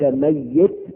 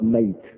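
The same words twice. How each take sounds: First: The y sound is doubled and held longer. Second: The y sound is single and short. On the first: It refers to someone who has not died yet. The speaker calls it right. "يقال ميت بالتشديد" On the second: It refers to someone who has already died. The speaker calls it wrong. "ولا تقرأ ميت"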